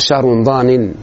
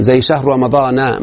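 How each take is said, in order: First: رمضان ended with nunation, in a different voice; mock the wrong form of رمضان ending in -in. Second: رمضان ended with a short a, slow and careful; correct ending. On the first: Teacher showing students the mistake to avoid, mock wrong ending. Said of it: "ما تقول". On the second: Teacher to student, modelling the right ending, slowly. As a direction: read شهر رمضان with the open a ending, no nunation. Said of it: "ما تقول شهر رمضان". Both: Shown as a demonstration.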